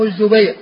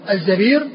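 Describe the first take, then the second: First: الزبير pronounced az-Zubayr; الزبير as a diminutive, Zubayr; damma on the zay. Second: الزبير pronounced az-Zabīr; الزبير as in amīr; fatha on the zay. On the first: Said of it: "بضم الزاي مصغر". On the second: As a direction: say الزبير with za and long ee. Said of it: "بفتح الزاي على وزن أمير". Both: Shown as a demonstration.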